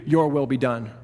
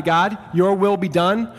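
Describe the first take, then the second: First: Grave words handed down, falling on your; somber verdict. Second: Slow, rising plea of surrender; slow yielding prayer, rising on will. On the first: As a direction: let it drop like a judgment. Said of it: "or God says to you". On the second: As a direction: offer it up to God slowly, lifting at will. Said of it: "Either you say to God". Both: Shown as a demonstration.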